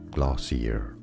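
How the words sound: It is said the American English way.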